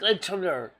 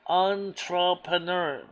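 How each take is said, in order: First: The word is said quickly and hurriedly. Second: The word is said slowly and carefully. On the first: "But if I say it too fast" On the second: "If I say it slow enough"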